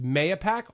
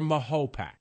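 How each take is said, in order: First: The middle syllable sounds like 'ya'. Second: The middle syllable sounds like 'ho'. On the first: Newcomers to the town say it this way. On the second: Natives of the town say it this way.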